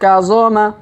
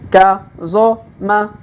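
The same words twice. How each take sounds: First: The syllables are read quickly in succession. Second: The syllables are read slowly and separately. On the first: "Kalau dipercepat" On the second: "Kita baca pelan-pelan"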